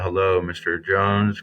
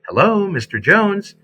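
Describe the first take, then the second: First: The voice sounds flat and unsmiling. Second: The voice sounds warm and smiling. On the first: The speaker calls it wrong. "You know that that tone comes across" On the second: The speaker calls it right. "now your tone has changed and you sound much better"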